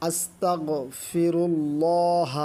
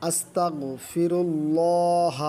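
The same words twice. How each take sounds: Both takes have the same delivery.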